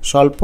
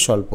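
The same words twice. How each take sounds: First: স্বল্প in three syllables, "shaw-lo-po"; without hasanta. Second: স্বল্প in two syllables, "shawl-po"; no vowel between l and p in স্বল্প; with hasanta. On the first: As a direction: insert an o after the l in স্বল্প. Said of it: "হসন্ত না দিলে হবে". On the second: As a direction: join l straight onto p in স্বল্প. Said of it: "হসন্ত দিলে হবে". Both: Shown as a demonstration.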